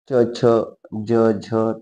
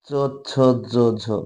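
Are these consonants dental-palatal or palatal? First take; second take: palatal; dental-palatal. First: The consonants are made at the hard palate. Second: The consonants are made near the teeth. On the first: "तालव्य" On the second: "दंत तालव्य"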